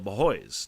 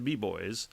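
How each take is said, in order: First: The name is said as 'ba-hoys', with an h sound. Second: The name is said as two syllables, 'bee boys'. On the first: The speaker calls it right. "The Bahoys" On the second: The speaker calls it wrong. "Not the B Boys"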